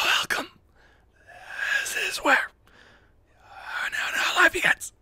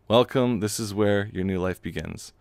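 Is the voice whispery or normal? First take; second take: whispery; normal. First: It is said in a whispery voice. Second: It is said in a normal voice.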